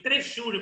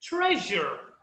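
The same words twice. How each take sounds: First: "tresure" misread as "trejúri"; pronúncia errada. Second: "treasure" as TREH-zher; pronúncia correta. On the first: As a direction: say "tresure" wrongly, with a "juri" ending. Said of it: "não tem como eu vou começar a pronunciar". ("tresure" errado, com final "júri") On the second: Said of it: "a última palavra é jar". ("treasure" certo, com final "jâr") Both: Shown as a demonstration.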